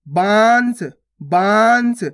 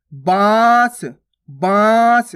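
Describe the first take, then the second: First: बांस with a full n, as "baans"; nose-only anusvara. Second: बांस with a long nasal vowel, no n consonant; nose-and-mouth chandrabindu. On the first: Teacher contrasting the dot, बांस with a nasal n. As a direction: sound a clear n before the s in बांस. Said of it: "केवल नाक से उच्चारण हो रहा है". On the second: Teacher contrasting chandrabindu, long nasalised vowel in बांस. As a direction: stretch बांस through nose and mouth together. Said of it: "नाक और मुंह दोनों से उच्चारण हो रहा है". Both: Shown as a demonstration.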